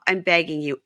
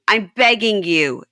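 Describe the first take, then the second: First: Said in the usual way. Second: Begging stretched out slowly and louder; slow emphatic plea. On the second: Retold or imitated. Retelling a wife's plea, begging drawn out. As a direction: lean hard on begging, slowly. Pleading quote, repeated louder.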